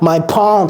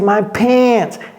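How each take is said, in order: First: It is said with a French nasal vowel. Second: It is said with an English vowel. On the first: The speaker calls it wrong. "Ce n'est pas my pants" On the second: The speaker calls it right. "Non, c'est my pants"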